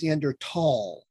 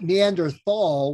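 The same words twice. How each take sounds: First: The last syllable starts with a t sound. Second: The last syllable starts with a th sound. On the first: The speaker calls it right. "there is an H in there, but you don't say it" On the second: The speaker calls it wrong. "it's not Neanderthal, which we learned in school"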